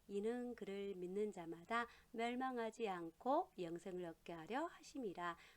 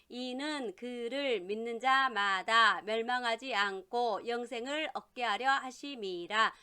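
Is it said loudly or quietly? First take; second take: quietly; loudly. First: It is said in a quiet voice. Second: It is said in a normal, full voice.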